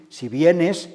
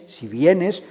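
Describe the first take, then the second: No difference in how they are said.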